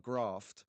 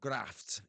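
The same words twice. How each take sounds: First: It is said in a southern English accent. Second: It is said in a northern English accent.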